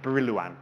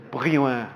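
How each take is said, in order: First: It is pronounced with an English accent. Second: It is pronounced with a throaty French accent. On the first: "The English way of pronouncing it" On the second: "the French way, you have to cough a lot more"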